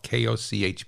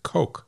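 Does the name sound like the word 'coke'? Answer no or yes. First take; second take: no; yes. First: The name does not sound like 'coke'. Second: The name sounds exactly like 'coke'. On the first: "I'm going to pronounce it Koch because it's spelled K-O-C-H" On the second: "they pronounce it Coke"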